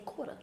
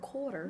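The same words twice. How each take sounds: First: The R sound is dropped from the word. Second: The R sound is clearly pronounced in the word. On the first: This is how New Yorkers say it. "They say quarter" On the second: This is how New Yorkers do not say it. "They don't say water or quarter"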